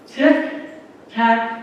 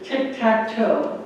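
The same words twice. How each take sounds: First: "Tic-tac-toe" drawn out word by word; slow, deliberate. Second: Said in the usual way. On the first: Shown as a demonstration. Presenter announcing competitive tic-tac-toe, "Tic-tac-toe" slow and deliberate. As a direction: say "Tic-tac-toe" slowly, a gap after each word. Repeats the game's name for effect.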